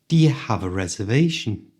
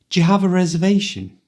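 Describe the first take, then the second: First: It is spoken at a moderate speed. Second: It is spoken quickly, at full speed. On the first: "this time a little faster" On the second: "at the speed native people speak"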